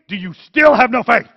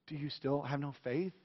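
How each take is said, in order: First: It is said harshly, like yelling. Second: It is said gently and lovingly.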